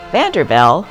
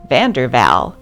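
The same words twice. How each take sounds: The two takes are said the same way.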